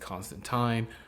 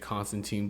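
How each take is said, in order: First: The name is said the British way. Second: The name is said the American way. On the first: "in British uh, English or U K English, uh, they say Constantine" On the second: "here in you know English, American English, we say Constantine"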